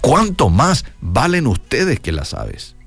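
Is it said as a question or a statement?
statement. It is said with a statement tune.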